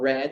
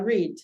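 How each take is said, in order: First: It is said with a standard open vowel. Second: It is said with a New Zealand raised vowel.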